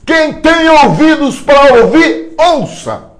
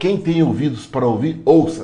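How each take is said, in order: First: It is shouted loudly as an exclamation. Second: It is spoken at a normal volume.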